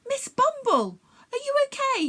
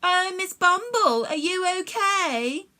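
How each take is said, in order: First: Lightly voiced young boy, worried; a hint of a boy checking on a friend; concerned boy calling to the bee; boy's voice. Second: Slow, sing-song mock of a worried boy; mocking mimicry. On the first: A narrator's reading. Jack voiced by narrator. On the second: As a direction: mimic him to make fun, drawn out. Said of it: "the meanies mimicked".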